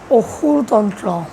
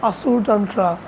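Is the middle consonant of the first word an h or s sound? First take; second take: h sound; s sound. First: The first word has an h sound inside. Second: The first word has an s sound inside. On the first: It is the form in the speaker's own language. "in my language it is pronounced as" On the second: It is an easier form for outsiders. "For the sake of keeping it easier to understand, I am calling it as"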